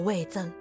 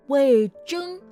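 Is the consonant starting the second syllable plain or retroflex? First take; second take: plain; retroflex. First: The second syllable starts with a plain 'z' sound. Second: The second syllable starts with a retroflex 'zh' sound. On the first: It names a food ingredient for pickles and soup. The speaker calls it wrong. "不是那个魏征" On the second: It names the loyal minister. The speaker calls it right. "有卷舌"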